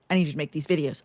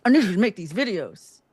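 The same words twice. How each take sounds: First: Said in the usual way. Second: "need" पर ज़ोर, थोड़ा ऊँचा; stress on need. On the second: Shown as a demonstration. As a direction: hit "need" harder. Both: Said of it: "repeated for emphasis".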